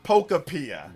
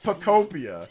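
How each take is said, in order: First: The name ends sounding like 'apia'. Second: The name ends sounding like 'utopia'. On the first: The speaker calls it wrong. "It's not Pokopia" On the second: The speaker calls it right. "It's Pokemon plus Utopia"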